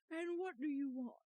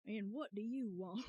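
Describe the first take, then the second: First: Lightly gruff demand; a slight old-man grumble; gruff old lawyer. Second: Breaking into laughter on the line; laughing retry. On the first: Acted. Player voicing Grossberg asking the visitor, lightly gruff. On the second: Shown as a demonstration. Streamer retrying Grossberg's line while laughing. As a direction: try the line and crack up. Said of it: "I don't know how to do".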